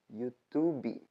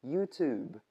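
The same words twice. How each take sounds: First: YouTube com i no final, iutubi; YouTube errado. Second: YouTube terminando seco no b; YouTube correto. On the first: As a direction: YouTube abrasileirado com vogal extra. (YouTube dito como iutubi) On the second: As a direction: YouTube sem vogal final. (YouTube em inglês sem i) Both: Shown as a demonstration. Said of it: "Outro erro clássico".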